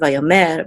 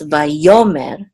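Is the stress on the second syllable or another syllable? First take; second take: another; second. First: The stress is on a different syllable. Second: The stress is on the second syllable. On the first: The speaker calls it wrong. "not vayomer" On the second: The speaker calls it right. "the trope mark here is on the second syllable, so it's vayomer"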